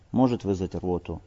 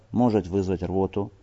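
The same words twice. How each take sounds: The two takes are said the same way.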